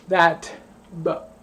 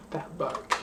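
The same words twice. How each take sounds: First: Said in the usual way. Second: That book whispered under the breath; whispered catchphrase. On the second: Shown as a demonstration. Drunk vlogger repeating her catchphrase, whispering. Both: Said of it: "I've been saying".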